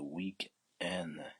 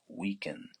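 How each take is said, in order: First: The word is said at a slower pace. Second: The word is said at a faster pace.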